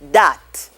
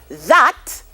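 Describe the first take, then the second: First: The word begins with a d sound. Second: The word begins with a th sound.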